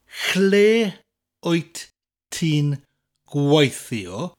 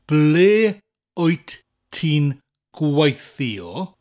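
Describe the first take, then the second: First: The first word begins with a ch sound. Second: The first word begins with a plain b sound. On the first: This is the North Wales form. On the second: This is the general, non-northern form.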